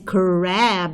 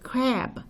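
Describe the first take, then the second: First: The R sound is strong and emphatic. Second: The R sound is soft and light. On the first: The speaker calls it wrong. "I don't say crab" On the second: The speaker calls it right. "I say crab"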